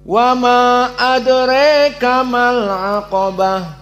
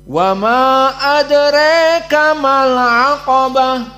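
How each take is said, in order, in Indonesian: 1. Vokal dalam adraka condong ke e. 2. Vokal dalam adraka condong ke e.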